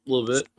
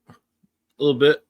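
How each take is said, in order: First: Said in the usual way. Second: Slow, drawn-out "A little bit" with a laugh under it; slow teasing. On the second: Shown as a demonstration. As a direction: tease with "A little bit", stretched.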